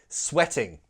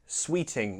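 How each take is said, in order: First: The first vowel is short, like in 'set'. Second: The first vowel is long, like in 'sweet'. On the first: The speaker calls it right. "No, sweating" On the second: The speaker calls it wrong. "I often hear sweet, sweeting"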